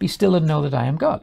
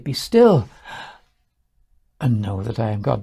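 First: It runs on with no pause after "still." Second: There is a pause after "Be still."

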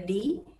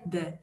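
First: The word ends in an 'ee' sound. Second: The word ends in an 'uh' sound. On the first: It comes before a word starting with a vowel sound. "Quando a gente pronuncia na frente de palavras que tem som de vogal, a gente pronuncia de" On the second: It comes before a word starting with a consonant sound. "quando a gente tem sons de consoante, a gente pronuncia de"

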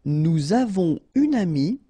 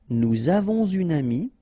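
First: No linking sound joins avons and une. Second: A z sound joins avons to une.

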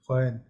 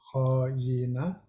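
First: The word ends without the final vowel. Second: The word ends with a final vowel. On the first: This is how the word is spoken. "We speak ho-yin" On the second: This is how the word is written. "we write ho-yina"

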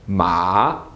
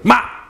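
First: The pitch dips down and then rises again. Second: The syllable is yelled out short and sharp. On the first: "you fall a bit and then you rise back up" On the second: "just yell out a word sharply"

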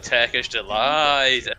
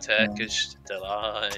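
First: It is said with eager, excited enthusiasm. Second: It is said flatly, sounding let down. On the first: The treat looks wonderful and is eagerly anticipated. "When I seen that movie, I was like" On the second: The treat turns out to be not that nice. "And you actually try it and you go"

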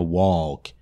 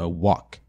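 First: The L sound is pronounced in the word. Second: The L sound is silent in the word. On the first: The speaker calls it wrong. "Então não é walk" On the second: The speaker calls it right. "É walk. Ignora esse L"

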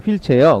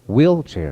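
First: It is said as a flat Korean loanword. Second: It is said in English with clear stress. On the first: The speaker calls it wrong. "휠체어 그러지 말고" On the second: The speaker calls it right. "wheelchair 이렇게 강세 주면서"

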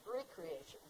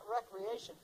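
First: The word begins with a long 'ree' sound. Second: The word begins with a short 'rek' sound. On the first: Creating oneself anew. The speaker calls it right. "We've got to start recreating ourselves" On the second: Leisure and amusement. The speaker calls it wrong. "Not recreation"

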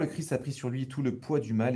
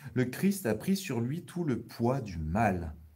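First: It is read at a faster pace. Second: It is read at a slower pace.

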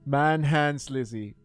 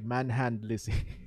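First: An s sound is heard before Lizzie. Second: No s sound is heard before Lizzie. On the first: The speaker calls it right. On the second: The speaker calls it wrong.

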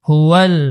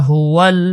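Both takes have the same delivery.

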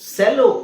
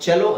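First: The word begins with an s sound. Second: The word begins with a ch sound. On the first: The speaker calls it wrong. "ಇದು ಸೆಲೋ ಅಲ್ಲ" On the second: The speaker calls it right. "ಚೆಲೋ ಅಂತ ಹೇಳ್ಬೇಕು"

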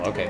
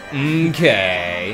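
First: It is said in a casual, dismissive tone. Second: It is said in a condescending tone. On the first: The remark is acknowledged without much interest. "Kind of like my dismissive, just, I acknowledge what you're saying" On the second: The other person's remark is looked down on. "If I was wanting to be condescending, I'd be like, oh, okay"

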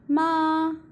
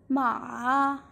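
First: The pitch stays high and level. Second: The pitch dips low and then rises. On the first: It means mother. "ma in the first tone" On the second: It means horse. "ma in the third tone"

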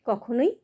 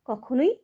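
Both takes have the same delivery.

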